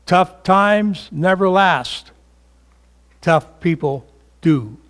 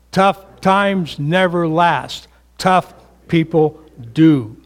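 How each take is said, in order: Both takes have the same delivery.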